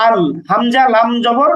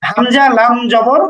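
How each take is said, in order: First: Said in the usual way. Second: Slow, deliberate letter-by-letter reading; slow spelling out. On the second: Shown as a demonstration. Teacher spells the Arabic syllable for students, slowly. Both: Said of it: "সুতরাং উচ্চারণ হবে এমন".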